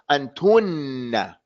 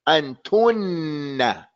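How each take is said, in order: First: The n sound is held and doubled. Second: The n sound is held and doubled.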